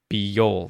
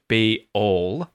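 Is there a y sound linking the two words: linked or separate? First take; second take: linked; separate. First: A y sound glides between the two words. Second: The two words are said without a y glide. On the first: The speaker calls it right. "we use a y sound" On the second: The speaker calls it wrong. "Instead of"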